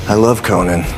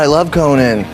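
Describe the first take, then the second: First: It is said quietly and somberly, to oneself. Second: It is said loudly and excitedly.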